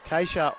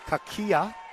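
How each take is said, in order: First: The name is said in an anglicized way. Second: The name is said in its traditional way. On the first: This is how the people around the player say it. "Keisha is how they pronounce it" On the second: This is the original form of the name. "or the more traditional pronunciation"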